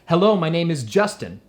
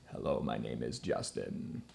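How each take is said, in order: First: It is spoken in a normal chest voice. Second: It is spoken in a low creaky fry. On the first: "in your chest voice" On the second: "the vocal fry, which is this sound right here"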